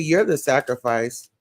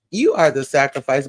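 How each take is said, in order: First: Said in the usual way. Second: "You are" pulled apart and pressed, firmer; full, separate words on "You are" for emphasis; emphatic restatement. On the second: Retold or imitated. Repeats own words in full form.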